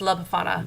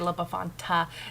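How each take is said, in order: First: No T sound comes before the final vowel. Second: A T sound comes before the final vowel. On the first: The speaker calls it right. "No, it's La Befana" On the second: The speaker calls it wrong. "I always want to say La Befanta"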